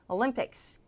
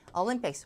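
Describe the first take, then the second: First: The stress is on the second syllable. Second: The stress is on the first syllable. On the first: The speaker calls it right. "뒤에 강세" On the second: The speaker calls it wrong. "Olympics가 아니라"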